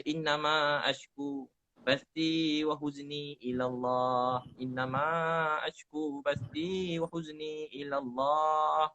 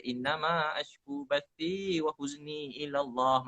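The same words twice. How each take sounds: First: Drawn-out devotional recitation; measured, reverent Arabic chant; slow Quranic recitation. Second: Drawn-out devotional recitation; slow Quranic recitation. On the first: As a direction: chant the Arabic verse slowly and evenly. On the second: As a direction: chant the Arabic slowly. Recites verse again. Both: Shown as a demonstration.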